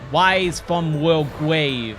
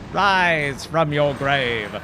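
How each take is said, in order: First: The voice is exaggerated and distorted, the r sounding like w. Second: The phrase is said plainly with a clear r sound. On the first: It mocks how people imitate the game line. The speaker calls it wrong. "really over-exaggerates it" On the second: It is how the game line actually sounds. The speaker calls it right. "it doesn't sound like that"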